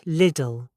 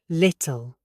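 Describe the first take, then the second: First: The middle T sounds like a soft D. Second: The middle T is a clear, released T. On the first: The speaker calls it wrong. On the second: The speaker calls it right.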